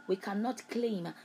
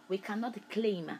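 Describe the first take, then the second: No difference in how they are said.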